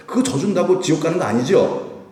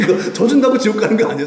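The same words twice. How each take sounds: First: "아니죠" as a question seeking agreement; light, leading question ending on "아니죠"; rhetorical question. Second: High, loud and laughing; laughing, emphatic reassurance; amused assertion. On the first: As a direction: ask "아니죠?" as a prompt to the listeners. Asks congregation to agree, then answers. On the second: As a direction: insist through a laugh. Answers own question after laughing. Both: Real, not acted.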